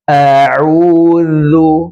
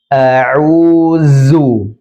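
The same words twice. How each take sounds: First: The middle consonant is a voiced th sound. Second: The middle consonant is a buzzing z sound. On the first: The speaker calls it right. "Yang seharusnya dibaca adalah a'udzu, huruf zal" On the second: The speaker calls it wrong. "zal dibaca menjadi zai"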